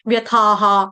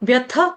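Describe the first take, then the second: First: The vowel is long, followed by a full 'ha'. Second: The vowel is short, ending in a light breath. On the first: The speaker calls it wrong. "गलत है" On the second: The speaker calls it right. "विसर्ग का उच्चारण देना है"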